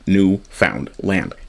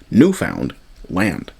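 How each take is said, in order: First: It is split into three separate parts. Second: It is split into two separate parts. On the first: The name is treated as three words. The speaker calls it wrong. "you're actually separating it into three different words" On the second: The name is treated as two words. The speaker calls it right. "It's two words"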